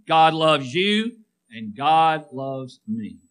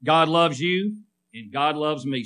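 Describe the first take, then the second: First: Slow, deliberate words for the church to repeat; slow recitation. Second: Said in the usual way. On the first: Shown as a demonstration. Preacher leading the congregation in unison, slow. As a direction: lead them word by word. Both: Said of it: "Say that with me".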